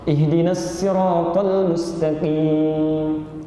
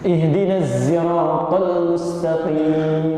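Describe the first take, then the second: First: Sirat starts with a plain, light s sound. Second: Sirat starts with a buzzing z sound. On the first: "bisanya sin. Turun riwayat Qalun" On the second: "bisanya zai"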